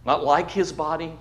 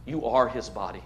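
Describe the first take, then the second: First: Said in the usual way. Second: Softer, with weight on "are"; "are" leaned on quietly; stress on are. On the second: Shown as a demonstration. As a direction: press "are" against "like".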